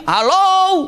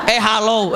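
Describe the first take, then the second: First: Loud high hello; booming shouted hello. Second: Said in the usual way. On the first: Shown as a demonstration. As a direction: call it out across a field. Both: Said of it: "Jadi kalau teriak di sini".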